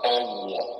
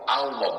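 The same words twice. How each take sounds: First: The vowel is said as a rounded 'o'. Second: The vowel is said as an open 'a'. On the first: The speaker calls it wrong. "bukan O" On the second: The speaker calls it right. "bukan O tapi A"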